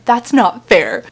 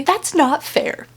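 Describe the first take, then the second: First: Slow, loud stress on "not"; slow protest again. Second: Drawn-out slow stress on "not"; slow protest. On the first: Repeating her defense to viewers, slow firm protest. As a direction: draw out "not fair" firmly. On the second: Defending her favorite books, slow pouting protest. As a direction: say "not fair" slowly, pouting. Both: Real, not acted.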